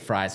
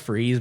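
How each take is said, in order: First: The vowel is 'eye', like in fries. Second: The vowel is 'ee', like in freeze. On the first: This is how the speaker chooses to say it. "but I say Fries" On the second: This is how the name is supposed to be said. "I think it's pronounced Freeze"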